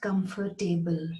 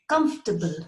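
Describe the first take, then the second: First: The ending is said as a full 'table'. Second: The ending is reduced and unstressed. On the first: The speaker calls it wrong. "it is not comfortable. It's not table" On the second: The speaker calls it right. "It's comfortable"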